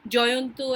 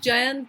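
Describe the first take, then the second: First: The name is said with Bengali pronunciation. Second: The name is said with non-Bengali pronunciation. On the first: "if I use my Bengali pronunciation" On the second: "for others"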